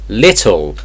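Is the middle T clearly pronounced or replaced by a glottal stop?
pronounced T. The middle T is clearly pronounced. "in regular English"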